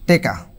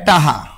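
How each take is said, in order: First: An e first vowel, with a k in the middle. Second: Open first vowel, with an h in the middle. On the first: "রংপুরের মানুষ কয় টেকা" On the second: "এটাকে বরিশালেরা কয় টাহা"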